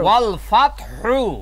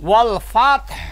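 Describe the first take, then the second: First: The last word ends with a short u vowel. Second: The last word ends on a bare h sound. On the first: The reciting continues without stopping here. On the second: The reciter stops at this word.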